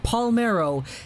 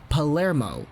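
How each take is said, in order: First: The m sound comes before the r sound. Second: The m sound comes after the r sound. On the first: The speaker calls it wrong. "it's not Palmero" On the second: The speaker calls it right. "it's Palermo"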